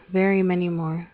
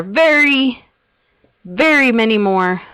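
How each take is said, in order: First: Said in the usual way. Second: "very" drawn out, louder and higher; big stretched stress on "very"; emphatic VERY. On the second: Real, not acted. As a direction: lean hard and long on "very". Emphasising how many more plots.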